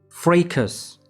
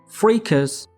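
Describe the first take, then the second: The two takes are said the same way.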